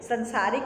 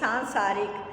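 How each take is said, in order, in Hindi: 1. पहले अक्षर में छोटा 'a' स्वर है। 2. पहले अक्षर में लंबा 'aa' स्वर है। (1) "संसारिक नहीं" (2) "सा से को आ की मात्रा"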